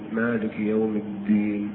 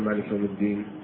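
First: The d sound is held and doubled. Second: The d sound is short and single. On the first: The speaker calls it right. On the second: The speaker calls it wrong.

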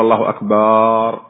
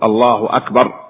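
First: The last vowel of akbar is drawn out long. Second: The last vowel of akbar is short. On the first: The word becomes a plural meaning drums. The speaker calls it wrong. "ولا يقول الله أكبر" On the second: God is the greatest. The speaker calls it right. "فليصحح لفظه يقول الله أكبر"

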